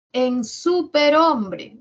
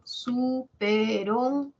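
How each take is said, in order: First: Superhombre said slowly and loudly; slow demo word. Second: Superhombre stretched out syllable by syllable; very slow syllables. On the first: Teacher to class, announcing superhombre slowly. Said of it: "demo word for class". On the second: Teacher to class, splitting Superhombre very slowly. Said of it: "syllabified demo word". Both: Shown as a demonstration.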